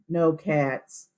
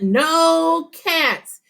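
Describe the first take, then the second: First: It is said flatly, without expression. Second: It is said with excited expression.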